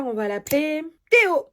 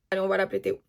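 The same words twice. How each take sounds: First: Playful naming. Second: Said in the usual way. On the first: Shown as a demonstration. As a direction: announce the name Théo with a flourish.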